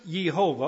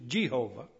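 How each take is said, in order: First: "Jehovah" said with an initial Y sound, Yeh-HO-vah; Hebrew-style pronunciation. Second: "Jehovah" said with an initial J sound, Jeh-HO-vah; English pronunciation. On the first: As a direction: open "Jehovah" with a Y, not a J. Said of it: "but it's pronounced Jehovah". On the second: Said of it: "as we say it in our language". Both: Shown as a demonstration.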